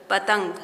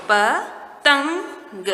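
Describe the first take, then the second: First: Said in the usual way. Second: पतंग stretched very slowly, syllable by syllable; slow sounded-out reading. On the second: Shown as a demonstration. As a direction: draw out पतंग slowly so children hear each sound. (पतंग को धीरे-धीरे खींचकर बोलें) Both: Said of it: "हम इसको पढ़ेंगे".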